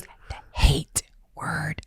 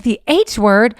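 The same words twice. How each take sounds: First: Put-on slow, hushed child's confession; drawn-out secretive whisper; retold whisper. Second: Louder, rising echo question; retold parent's startled question; questioning disbelief. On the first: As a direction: whisper it like a forbidden word. Child saying forbidden word, retold. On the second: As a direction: query it out loud, taken aback. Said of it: "I was like".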